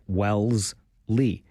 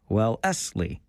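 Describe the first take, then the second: First: The name is said with two syllables. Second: The name is said with three syllables. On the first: This is how most people say it. "I think we make it a two-syllable word" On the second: This is how the locals say it. "for the locals, it might actually be three syllables"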